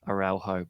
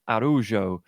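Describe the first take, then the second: First: It is read out as the English spelling suggests. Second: It is said with a Portuguese pronunciation. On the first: "which is spelt like" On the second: "but it's Portuguese, so it's an"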